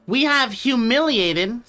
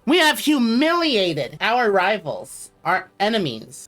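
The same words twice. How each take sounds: First: Slow, stately announcement of triumph; grand proclamation. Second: Slow, stately emperor's announcement; grand proclamation. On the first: Streamer restarting the victory proclamation for chat. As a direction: proclaim it like a conquering emperor. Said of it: "sorry, let me just show". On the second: Streamer proclaiming triumph over rivals to chat. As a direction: boast of the victory like a proud ruler. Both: Pretend.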